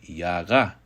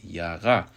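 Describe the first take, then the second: The two takes are said the same way.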